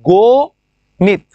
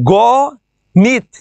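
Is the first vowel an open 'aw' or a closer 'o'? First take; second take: o; aw. First: The first vowel is a closer 'o' sound. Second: The first vowel is an open 'aw' sound. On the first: This is how it is actually pronounced. "হয়ে গেছে কি গো নিত" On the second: This is the form as written. "ছিল কি গ নিত"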